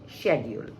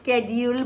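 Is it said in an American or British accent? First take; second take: British; American. First: It is said in a British English accent. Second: It is said in an American English accent.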